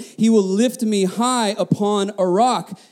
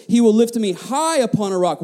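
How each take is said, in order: First: Slow, weighty reading of the verse; slowed, deliberate scripture reading; slow emphasis. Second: High lifted and stressed; verse repeated with weight on high. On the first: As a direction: lean on each word of the verse. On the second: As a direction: hit the word high. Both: Shown as a demonstration. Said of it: "Look at this".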